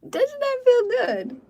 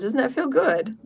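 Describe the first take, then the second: First: Much higher, drawn out and thrilled; delighted squeal. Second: Said in the usual way. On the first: Real, not acted. Healer asking listeners how they feel, delighted squeal.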